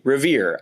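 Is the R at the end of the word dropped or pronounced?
pronounced. The final R sound is clearly pronounced. "in my uh, Midwestern American English, I say Revere. I produce my post-vocalic R's"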